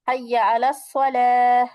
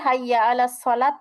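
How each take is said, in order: First: The final word ends with an h sound. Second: The final word ends with a t sound. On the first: The speaker calls it right. "শেষে গোলটাকে আমরা হা করে ফেলছি" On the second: The speaker calls it wrong. "না বলে"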